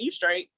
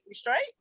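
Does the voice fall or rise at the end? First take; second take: fall; rise. First: The pitch falls at the end. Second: The pitch rises at the end. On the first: It tells the listener they are okay. "You straight is a statement" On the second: It asks whether the listener is okay. "You straight is a question"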